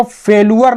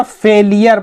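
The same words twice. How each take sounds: First: फेलुअर said with an "oo-ar" ending; फेलुअर with a "loo" in the middle; wrong pronunciation demo. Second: फेलियर said with an "ee-yar" ending; फेलियर with a "lee" in the middle; correct pronunciation demo. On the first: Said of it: "फेलुअर नहीं पढ़ेंगे ना". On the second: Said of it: "फेलियर पढ़ेंगे". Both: Shown as a demonstration.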